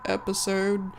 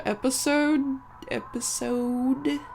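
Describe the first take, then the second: First: "episode" with a faint R colouring the O; relaxed "episode", the O tinged toward "er"; slight R in episode. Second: "episode" said slowly with a plain O and no R; careful, higher "episode" with a pure O; normal O in episode. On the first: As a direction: let a slight R slip into the O of "episode". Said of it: "there's a slight R sound in". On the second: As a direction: draw out "episode" with a clean long O. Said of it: "I said it normally that time". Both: Shown as a demonstration.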